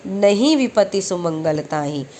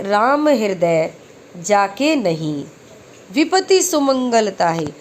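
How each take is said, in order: First: नहीं opens the phrase, no pause after it; नहीं joined to विपत्ति. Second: Slow Ram हृदय जाके नहीं, then a break; pause after नहीं. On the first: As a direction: start the new phrase on नहीं. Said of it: "यहाँ लगा है नहीं से पहले". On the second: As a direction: keep नहीं with जाके, pause before विपति. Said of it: "यहाँ लगा है नहीं के बाद". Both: Shown as a demonstration.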